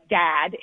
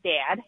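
First: The vowel is low and not raised. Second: The vowel is high, raised and fronted. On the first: Younger speakers say it this way. "newer generations are saying like Dad" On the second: Older speakers say it this way. "Dad with a really high raised fronted eh"

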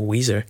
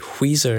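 First: The word starts with a plain w sound. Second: The word starts with an h sound.

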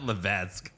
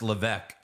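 First: An S sound is heard inside the name. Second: No S sound is heard inside the name. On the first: The speaker calls it wrong. "Not Levesque" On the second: The speaker calls it right. "You don't pronounce the S. It's just Levesque"

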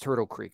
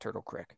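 First: The last word has a long vowel, like 'seek'. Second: The last word has a short vowel, like 'sick'. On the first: The speaker calls it right. "Like it's Turtle Creek" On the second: The speaker calls it wrong. "not Turtle Creek"

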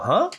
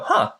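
First: It sounds puzzled and confused. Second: It sounds thoughtful and impressed.

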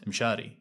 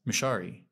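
First: The name is said with Arabic pronunciation. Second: The name is said in an anglicized way. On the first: This is the name as it really is. "not Mshari, even though Mshari is my name" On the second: The name is made easy for Westerners to say. "I always introduce myself as Mshari"

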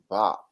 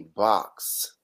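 First: The word is said fast with the ending clipped. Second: The word ends with a full x sound. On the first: "He would say Bach. So it was like, a fast" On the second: "he wouldn't say box"

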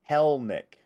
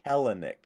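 First: The name is said with two syllables. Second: The name is said with three syllables. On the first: The speaker calls it right. "Two syllables. Second E is silent" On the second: The speaker calls it wrong. "not Kelenic"

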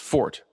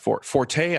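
First: The word is said with one syllable. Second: The word is said with two syllables. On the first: The speaker calls it right. "It is fort" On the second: The speaker calls it wrong. "is not the correct way to pronounce it"

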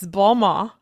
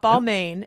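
First: The name is said with a French pronunciation. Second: The name is said with an English pronunciation. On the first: The speaker calls it right. "It's Balmain" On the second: The speaker calls it wrong. "It's not Balmain"

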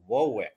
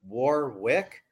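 First: The R is dropped, local Rhode Island style. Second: The R is clearly pronounced.

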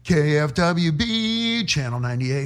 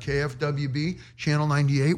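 First: It is said in a loud top-forty DJ voice. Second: It is said in a plain, conversational voice.

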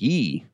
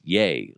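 First: The vowel sounds like 'ee'. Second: The vowel sounds like 'ay'. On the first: The speaker calls it wrong. "I kept saying ye, because it's spelled Y-E" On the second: The speaker calls it right. "it's yay, like Y-A is the, like how you're supposed to say it"

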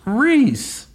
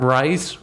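First: The name rhymes with 'piece'. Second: The name rhymes with 'nice'. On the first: The speaker calls it right. "It's pronounced Reese" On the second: The speaker calls it wrong. "Not Rice"

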